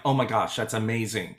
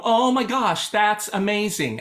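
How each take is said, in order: First: Said in the usual way. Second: Light up and mean every word; excited. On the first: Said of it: "Do you hear the difference?". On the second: Shown as a demonstration. Teacher demonstrates the joyful version to her choir, bright and excited. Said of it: "And I'll go".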